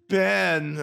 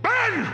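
First: The name is said quietly, not yelled. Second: The name is yelled loudly.

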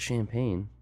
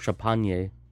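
First: It is said with a plain English pronunciation. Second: It is said with a put-on French pronunciation.

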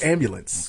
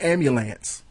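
First: The last syllable sounds like 'lents'. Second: The last syllable sounds like 'lance'. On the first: The speaker calls it right. "It's ambulance. ... It's Lentz" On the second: The speaker calls it wrong. "It's evidently not ambulance. ... it's not Lance"

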